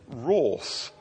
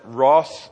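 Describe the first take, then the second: First: Said in a posh, upper-class pronunciation. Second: Said in an ordinary southern English pronunciation. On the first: This is the dictionary's correct form. "the correct way to pronounce it is wrath, which sounds horribly upper class" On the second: This is how the speaker normally says it. "I come from the south of England. I pronounce it wrath"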